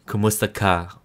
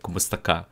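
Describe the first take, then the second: First: "Kumusta ka?" with a mild American English accent; an American actress trying to say "Kumusta ka?". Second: Kumusta ka in a native Tagalog accent, said softly. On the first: Vlogger mimics Trece's dubbed line, American accent. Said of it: "You will hear Trece saying". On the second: Vlogger demos how Trece should greet, Tagalog accent. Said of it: "like the Tagalog accent of". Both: Shown as a demonstration.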